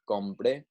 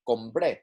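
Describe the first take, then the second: First: "Compre" stressed on "Com"; stress on first syllable. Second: "compré" with "pré" stressed; stress on last syllable. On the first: Teacher repeating the contrast for students, "Compre" stressed on "Com". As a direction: say "Compre" with an unstressed final "pre". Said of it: "it is different from". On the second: Teacher repeating the contrast for students, "compré" stressed on "pré". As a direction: finish "compré" firmly on the final syllable. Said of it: "to show that it is stressed". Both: Shown as a demonstration.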